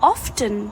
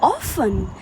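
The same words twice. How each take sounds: First: The T sound is clearly pronounced. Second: The T sound is left silent. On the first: The speaker calls it wrong. "ना कि often" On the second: The speaker calls it right. "इस word में letter T silent होता है। इस word को हम बोलते हैं often"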